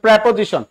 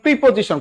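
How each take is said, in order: First: The first syllable has an 'eh' vowel. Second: The first syllable has an 'ee' vowel. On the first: The speaker calls it right. "এটা হচ্ছে প্রেপোজিশন" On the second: The speaker calls it wrong. "আপনারা বলেন প্রিপোজিশন, কোন প্রিপ্রি না"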